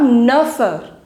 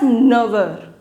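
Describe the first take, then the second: First: The linking consonant is an f sound. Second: The linking consonant is a v sound. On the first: The speaker calls it wrong. "it is not neuffer" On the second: The speaker calls it right. "the pronunciation of F will change into V"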